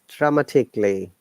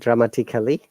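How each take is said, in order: First: The vowel before '-lly' is dropped. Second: The vowel before '-lly' is fully pronounced. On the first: The speaker calls it right. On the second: The speaker calls it wrong.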